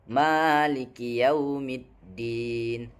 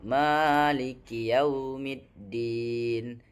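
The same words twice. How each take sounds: The two takes are said the same way.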